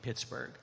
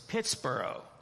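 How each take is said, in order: First: The ending is said as a hard burg. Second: The ending sounds like the end of Edinburgh. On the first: This is the later, current pronunciation. "later on it became" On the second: This is the original, older pronunciation. "if you think of Edinburgh... probably the first pronunciation of this was"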